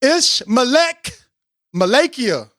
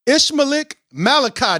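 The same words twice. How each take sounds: First: Ishmaelek drawn out slowly, rising, then Malakia; careful pronunciation. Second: Ishmael Malachi said plainly, falling; first try at the name. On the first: Host carefully repeating the guest's name, slow careful Ishmaelek. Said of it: "I got it". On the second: Host first trying the guest's name, plain reading. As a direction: read Ishmael Malachi off the page. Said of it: "Did I say that right". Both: Shown as a demonstration.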